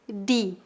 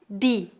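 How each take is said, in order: First: It is said the Northeastern Brazilian way. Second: It is said the Northeastern Brazilian way.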